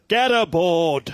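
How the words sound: It is said in a British accent.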